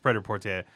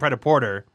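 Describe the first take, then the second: First: The last word sounds French, like 'portier'. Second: The last word sounds like English 'porter'. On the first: The speaker calls it right. "it's Preda Portier. It comes from French" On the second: The speaker calls it wrong. "we were saying Preda Porter, but it's not"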